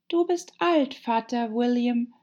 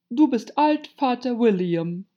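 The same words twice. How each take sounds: First: Put-on high-pitched girl reciting verse; high, measured poem recital; Alice reciting. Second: Loud, pitched-up caterpillar voice; ponderous, bossy dictation; commanding caterpillar. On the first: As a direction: recite it like a schoolgirl. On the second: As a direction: announce the poem title imperiously. Caterpillar dictates the poem title. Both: A narrator's reading.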